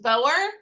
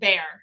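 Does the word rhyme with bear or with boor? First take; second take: boor; bear. First: The vowel sounds like the one in boor. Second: The vowel sounds like the one in bear. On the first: "I've heard it pronounced Boer" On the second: "I've heard it pronounced bear"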